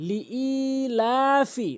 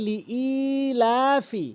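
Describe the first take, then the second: Both takes have the same delivery.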